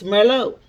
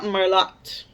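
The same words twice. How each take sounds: First: The final T sound is silent. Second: The final T sound is pronounced. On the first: The speaker calls it right. "It's Merlot" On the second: The speaker calls it wrong. "it's not Merlot"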